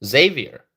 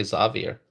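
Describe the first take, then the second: First: Xavier with a long "ay" first syllable, like ZAY-vier; pronunciation of Xavier. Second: Xavier with an open "ah" first syllable, like ZAH-vier; alternative pronunciation of Xavier. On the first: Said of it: "pronounce it". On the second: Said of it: "Some people would say Xavier". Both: Shown as a demonstration.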